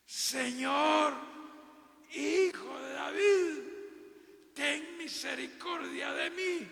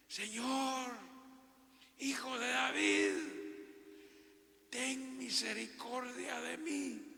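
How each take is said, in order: First: High, loud, slow desperate scream; shouted plea, much higher and louder; full-force shout. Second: High, loud desperate call to the Lord; mother's anguished plea, higher and louder; pleading cry. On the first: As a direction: cry out with all your heart. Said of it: "gritando con todas las fuerzas de su corazón". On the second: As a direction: cry out to him from far off. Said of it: "comenzó a gritar". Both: Acted.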